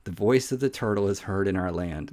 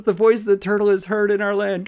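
First: Said in the usual way. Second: Verse read high and loud as a surfer dude; surfer turtle voice. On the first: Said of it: "you gotta look at that part of this". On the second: Retold or imitated. Preacher rereads the verse as Michelangelo, high and loud. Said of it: "They don't sound like California surfers".

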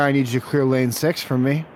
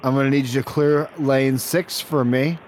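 First: Said in the usual way. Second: "clear lane six" spaced out deliberately; measured, insistent restating. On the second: Acted. Repeats demand after a "What?.

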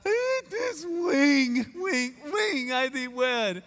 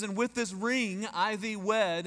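First: High, slow, drawn-out weepy wail, "ring" turned to "wing"; hammed-up crying with a w for the r in "ring"; mock sobbed vows. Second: Said in the usual way. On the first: Groom saying his ring vow to his bride, comically tearful. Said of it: "and it comes out". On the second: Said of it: "it gets to the part where it says".

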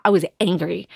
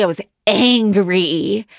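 First: Said in the usual way. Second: ANGRY stretched out slowly for emphasis; emphatic ANGRY. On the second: Real, not acted. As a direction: draw out both syllables of ANGRY. Repeats it emphatically after "Literally.

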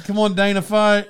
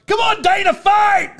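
First: Said in the usual way. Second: High-pitched cheering yell at a cousin. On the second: Retold or imitated. Retelling a cheer yelled at cousin in the match, yelling. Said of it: "I was, like, yelling at my cousin".

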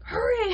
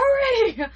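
First: Calling out. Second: High, loud urgent shout; calling out. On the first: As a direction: urge her to come quickly. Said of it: "He's like". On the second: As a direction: yell for her to run over now. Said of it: "And he goes". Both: Retold or imitated.

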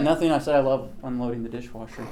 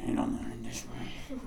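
First: Said in the usual way. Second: Whispered, grudging complaint; muttered under breath. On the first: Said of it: "didn't want her to hear me complain". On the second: Acted. Son complaining about mom's dishwasher order, muttered under breath. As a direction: grumble it so nobody can quite hear. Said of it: "complained under your breath".

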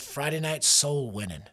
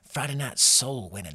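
First: Said in the usual way. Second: Put-on southern accent. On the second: Preacher recalling Friday night outreach, southern accent. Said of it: "I say it with a southern accent".

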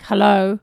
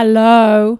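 First: Said in the usual way. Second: Much louder, drawn-out hello; louder operator hello. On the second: Acted. 911 operator to an unresponsive caller, calling out louder. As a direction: raise the voice to reach a silent caller. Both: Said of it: "And they talk louder".

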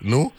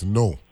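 First: No said as "noo", rhyming with canoe; pronunciation demo. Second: No with a long o, rhyming with go; pronunciation demo. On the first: Host checks the last syllable, No said like "noo". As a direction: say No with a long oo vowel. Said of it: "Like, like canoe". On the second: Host explains his old reading, no with a long o. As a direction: say no like the everyday word. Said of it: "used to look at it as no". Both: Shown as a demonstration.

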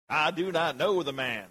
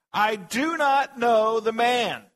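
First: Mock Southern drawl on Peter's denial. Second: Loud, high, drawn-out shout; cursing, swearing denial. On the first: Preacher joking about Peter's accent, Southern drawl. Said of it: "southern drawl". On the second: A narrator's reading. Peter swearing to the bystanders, a shouted denial. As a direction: swear it at full force, word by word. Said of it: "began to invoke a curse on himself and to swear".

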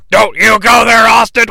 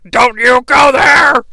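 First: Stern warning. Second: Higher, slow drawn-out yell; angry shout. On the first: Vince warning Austin on phone. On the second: Vince on the phone yelling at Austin, slow angry shout. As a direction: bellow the warning at him. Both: Retold or imitated.

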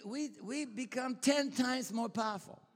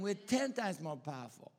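First: Ten times hit much higher and louder; stress on ten times. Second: Said in the usual way. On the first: Acted. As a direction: preach it, punching ten. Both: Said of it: "Say ten times".

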